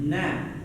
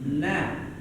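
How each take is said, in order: First: The vowel is an open A sound. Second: The vowel is an open A sound.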